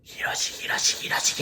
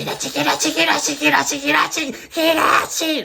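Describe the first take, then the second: First: Ghostly whispered Hiroshi, Hiroshi; whispering Hiroshi before it turns to a scream. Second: High, loud shriek of Hiroshi, Hiroshi; screaming Hiroshi after the whispers; shrieking the name. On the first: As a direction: hiss the name Hiroshi over and over. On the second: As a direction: scream Hiroshi ever louder like a frantic woman. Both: Retold or imitated. Ghost woman calling the name.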